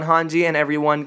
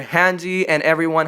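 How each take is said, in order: First: Hanji with an open "ah" vowel; corrected Hanji. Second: Hanji with a flat "a" as in "hand"; mispronounced Hanji. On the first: Vlogger correcting the commander's name, Hanji with an open "ah". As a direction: say Hanji like "HAHN-jee". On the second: Vlogger naming the commander, mispronounced Hanji with a flat "a". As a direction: say Hanji like "HAN-jee", rhyming with "candy". Slip said, then corrected. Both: Real, not acted.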